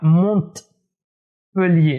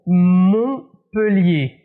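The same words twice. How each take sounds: First: The t is sounded. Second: The t is silent. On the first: The speaker calls it wrong. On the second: The speaker calls it right.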